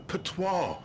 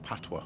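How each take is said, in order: First: "patois" said pa-TWAR, French style, stress on the end; "patois" as pah-twahr, the wrong Frenchified way. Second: "patois" said PAT-wah, stress on the first syllable; "patois" with a short flat pat-wuh ending; Jamaican patois. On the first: Retold or imitated. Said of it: "you tried to speak the French version". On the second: Shown as a demonstration. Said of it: "No, mate, it's called patois".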